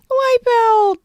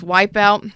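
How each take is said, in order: First: High shout. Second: Said in the usual way. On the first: Pretend. Shouting the word again.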